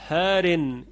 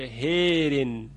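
First: The long vowel is an open 'a' sound. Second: The long vowel is tilted toward an 'e' sound.

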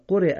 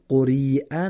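First: The ya is silent before the glottal stop. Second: The ya is sounded as a long ee. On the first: The speaker calls it right. "یا زیر همزه خوانده نمیشه" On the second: The speaker calls it wrong. "دقت کنیم قرئه نخونیم"

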